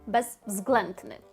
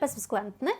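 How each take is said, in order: First: The word is said slowly and carefully. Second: The word is said quickly.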